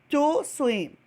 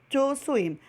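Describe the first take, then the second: No difference in how they are said.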